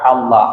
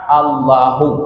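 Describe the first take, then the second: First: The word ends with an 'a' vowel. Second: The word ends with a 'u' vowel. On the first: The name is the excepted term of the sentence. "jadi bisa kita baca Allah" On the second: The name replaces the earlier noun in the sentence. "bisa kita baca Allahu"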